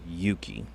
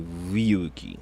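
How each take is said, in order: First: The word starts without an R sound. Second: The word starts with an R sound. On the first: The speaker calls it right. "You would drop the R and just say Yuki" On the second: The speaker calls it wrong. "You wouldn't say Ryuki"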